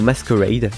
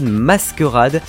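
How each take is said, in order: First: The word is pronounced the English way. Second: The word is pronounced the French way. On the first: "à l'anglaise" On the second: "à la française"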